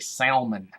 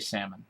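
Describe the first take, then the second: First: The L sound is clearly pronounced. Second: The L sound is silent. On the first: The speaker calls it wrong. "some people actually over enunciate that L. They'll say salmon" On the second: The speaker calls it right. "I just say salmon"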